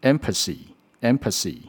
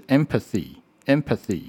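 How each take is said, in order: First: "empathy" said as "empasee", s replacing th; "empathy" with tongue behind the teeth, ending "-see"; wrong TH. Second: "empathy" with a dental th in the last syllable; careful unvoiced th in "empathy"; correct TH. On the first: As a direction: demonstrate the mistake with an s in "empathy". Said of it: "错误的声音变成". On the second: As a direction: demonstrate "empathy" with tongue between the teeth on th. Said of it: "正确的声音是". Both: Shown as a demonstration.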